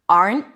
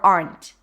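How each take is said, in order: First: The final T is held, not released. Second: The final T is released with a pop. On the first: "I held it here"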